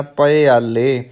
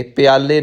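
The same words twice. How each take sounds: First: ਪਿਆਲੇ corrected to "pa-i-aale"; open pappa. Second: ਪਿਆਲੇ as quick "pyaale", like the word for cups; wrong closed pi. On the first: Teacher correcting learners, ਪਿਆਲੇ said as "pa-i-aale". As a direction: put a short a after p in ਪਿਆਲੇ, then i. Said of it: "ਪੱਪਾ ਮੁਕਤਾ ਰੱਖਣਾ ਹੈ". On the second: Teacher showing what not to say, ਪਿਆਲੇ as "piaale". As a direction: glide straight from p to i in ਪਿਆਲੇ. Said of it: "ਪਿਆਲੇ ਨਹੀਂ ਕਹਿਣਾ". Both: Shown as a demonstration.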